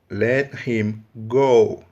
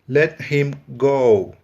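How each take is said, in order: The two takes are said the same way.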